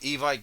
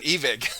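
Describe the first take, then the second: First: The name is said like 'e-bike'. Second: The name is said like 'ee-vick'. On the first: The speaker calls it wrong. "we have been saying it wrong" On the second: The speaker calls it right. "it sounds so weird saying Evic"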